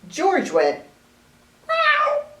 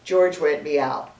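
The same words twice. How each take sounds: First: Meow is said in a put-on voice. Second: Meow is said in a plain voice.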